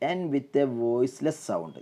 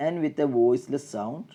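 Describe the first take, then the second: No difference in how they are said.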